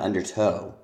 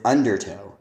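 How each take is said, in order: First: The stress is on a later syllable. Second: The stress is on the first syllable. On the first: The speaker calls it wrong. "not undertow" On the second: The speaker calls it right. "the stress is on the first syllable of undertow"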